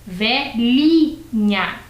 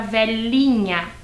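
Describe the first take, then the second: First: "velhinha" as VE, LHI, NHA, with palatal LH; LH sound. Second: "velhinha" said velinha, with a plain L before the i. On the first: Teacher shows the new word made with H, LH sound. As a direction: space out "velhinha", middle syllable LHI as in Italian gli. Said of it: "Eu tenho a palavra". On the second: Teacher recalls the old word before adding H, plain L. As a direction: join "velhinha" up, its middle a simple LI. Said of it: "não tenho mais a palavra". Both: Shown as a demonstration.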